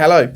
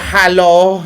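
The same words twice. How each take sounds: First: Hello is said with an ordinary English accent. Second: Hello is said with a foreign-sounding accent. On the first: The speaker calls it right. "You say hello. ... it's the way we pronounce it" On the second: The speaker calls it wrong. "you don't go hello"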